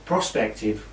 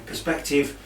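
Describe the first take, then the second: First: "prospective" fixed with pro-, /proh-SPEK-tiv/; self-correction. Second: "perspective" said with per-, /pər-SPEK-tiv/; misspoken word. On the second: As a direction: slip into "perspective", the per- sound. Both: Real, not acted. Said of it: "prospective rather".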